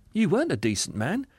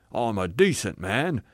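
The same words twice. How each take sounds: First: Higher, lilting contradiction; cheerful spirit. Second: Self-righteous assertion; indignant ghost. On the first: Spirit correcting the ghost, high and kindly. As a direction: contradict him sweetly. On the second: Ghost defending himself to the spirit, indignant. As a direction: insist stubbornly on your respectability. Ghost's claim, later contradicted. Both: Acted.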